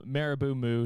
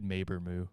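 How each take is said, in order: First: Marabou Moo said as MEH-ruh-boo moo; one version of the name. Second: Maber Moo said as MAY-ber moo; other version of the name. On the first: Real, not acted. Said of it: "I pronounce Marabou Moo differently every time". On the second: Shown as a demonstration. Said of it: "I think I did Maber Moo before".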